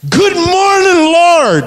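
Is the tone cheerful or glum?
cheerful. It sounds cheerful and happy.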